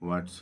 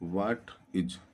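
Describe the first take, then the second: First: The words are joined into one short syllable. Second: Two separate full words are said.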